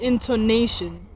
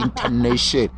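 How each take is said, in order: First: INTONATION slow, with a full O after the T; clear O. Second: "intonation" lower, in a Chivenda accent. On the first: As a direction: sound out "intonation" for a learner. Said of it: "There's an O". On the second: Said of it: "giving it a Chivenda accent". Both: Shown as a demonstration.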